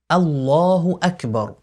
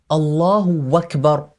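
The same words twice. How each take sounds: First: Akbar begins with a glottal stop. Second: Akbar begins with a w sound. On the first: The speaker calls it right. "on dit bien" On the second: The speaker calls it wrong. "il ne faut pas changer la hamza du mot akbar en waw. Ainsi, on ne dit pas"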